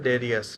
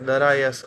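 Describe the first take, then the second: First: The name is said with 'e' and 'i', as Derius. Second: The name is said with 'a' vowels, as Darayas. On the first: The speaker calls it right. "એનું નામ છે ડેરિયસ" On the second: The speaker calls it wrong. "આ wrong pronunciation છે"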